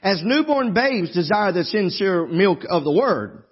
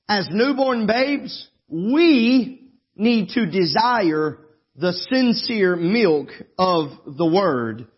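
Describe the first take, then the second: First: It runs on with no pause after babes. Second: There is a pause after babes.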